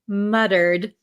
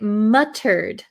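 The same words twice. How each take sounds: First: It is said with an American pronunciation. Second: It is said with a non-American pronunciation. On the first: "in my American English, I say muttered" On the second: "But you could say it muttered"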